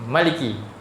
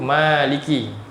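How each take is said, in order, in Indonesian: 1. Vokal pertama pendek. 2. Vokal pertama panjang.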